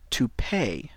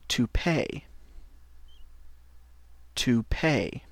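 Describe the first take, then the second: First: "To pay" whispered; whispered model. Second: "To pay" clearly voiced; English model word. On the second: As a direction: say "To pay" aloud for learners. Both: Shown as a demonstration.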